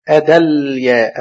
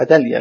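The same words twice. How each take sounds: First: أدليا drawn out slowly, held on the L; spelled out by syllables. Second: Said in the usual way. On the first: Shown as a demonstration. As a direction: sound out أدليا, resting on the vowelless L. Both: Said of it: "السكون على اللام".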